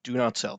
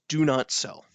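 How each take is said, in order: First: "not" punched in "Do not sell." with a falling close; firm repeat, weight on "not"; stress on not. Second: "do" hit first and hard, then falling; stress on do. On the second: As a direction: lean on "do" in "do not sell.". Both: Shown as a demonstration. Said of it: "just in case you pay attention to nothing else".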